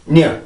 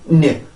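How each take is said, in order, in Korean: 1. n은 모음 앞에서 짧고 약하게 나요. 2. n은 모음 앞에서 짧고 약하게 나요.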